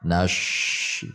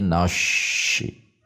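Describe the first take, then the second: First: The s is turned into an sh sound. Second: The same.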